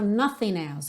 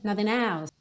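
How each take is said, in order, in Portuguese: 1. Cada som das palavras é pronunciado com clareza. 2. Os sons ficam embaçados juntos e reduzidos. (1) "não soa bem claro nothing else" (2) "ele soa bem nothing else"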